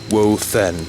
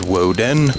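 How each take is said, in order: First: The middle consonant is a soft th sound. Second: The middle consonant is a hard d sound. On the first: "technically pronounced Wothen with a th" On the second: "because it looks like a D, you can pronounce it as Woden"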